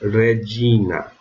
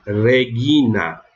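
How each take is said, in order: First: Drawn-out "Regina", dj in the middle; Roman pronunciation. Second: "Regina" with a hard g, re-ghee-na; drawn-out "Regina", hard g; reconstructed pronunciation. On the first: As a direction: say "Regina" with g as in gin. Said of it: "mas na romana eu lerei". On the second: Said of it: "na pronúncia reconstituída eu leria". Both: Shown as a demonstration.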